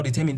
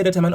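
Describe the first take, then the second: First: DETERMINE said dih-TER-min; standard pronunciation. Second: DETERMINE said DEH-tuh-man, full vowel at the end; alternative pronunciation. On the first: Teacher repeating an exam word for students, determine as dih-TER-min. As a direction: say determine with a short "min" ending. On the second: Teacher repeating an exam word for students, determine as DEH-tuh-mine. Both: Shown as a demonstration. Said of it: "depends on how you pronounce that".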